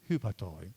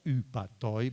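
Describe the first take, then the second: First: The word starts with a breathy h sound. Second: The word starts directly on the vowel. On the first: The speaker calls it right. "but hupatoi, like Helen, like Homer" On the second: The speaker calls it wrong. "not upatoi"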